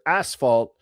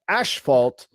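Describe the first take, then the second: First: The word has its usual American pronunciation. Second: The word has a Canadian-style pronunciation. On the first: "say the word asphalt" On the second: "but they pronounce it asphalt"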